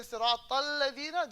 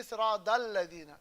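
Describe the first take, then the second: First: "Sirat al-ladina" with a clear t joining "Sirat" to "al-ladina"; recitation example. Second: "Sirat al-ladina" with the joining t softened towards d; major-accent misreading. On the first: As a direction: demonstrate the reading, stressed t into "al-ladina". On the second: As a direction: imitate accented recitation, "Sirat al-ladina" as sira-dalladina. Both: Retold or imitated. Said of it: "There's a major accent".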